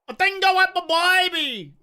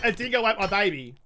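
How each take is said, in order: First: It has an exaggerated broad Australian twang. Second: It is said plainly without an exaggerated accent. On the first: It sounds funny. "the real big Aussie twang on it" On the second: It does not sound funny. "if I just said"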